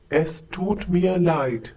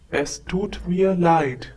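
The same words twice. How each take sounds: The two takes are said the same way.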